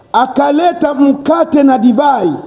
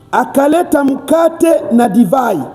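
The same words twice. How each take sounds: The two takes are said the same way.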